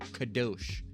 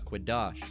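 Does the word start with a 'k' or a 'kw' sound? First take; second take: k; kw. First: The word begins with a plain k sound. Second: The word begins with a kw sound. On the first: The speaker calls it wrong. "the fake us's, all right, would call them uh, call it uh, Kadosh. It's not Kadosh" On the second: The speaker calls it right. "It's Quadash"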